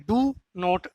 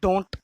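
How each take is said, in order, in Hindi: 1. दोनों शब्द अलग-अलग, पूरे बोले जाते हैं। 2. दोनों शब्द मिलकर एक छोटा शब्द बन जाते हैं। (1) "अलग अलग बोला जाता है" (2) "इकट्ठा भी बोल दिया जाता है"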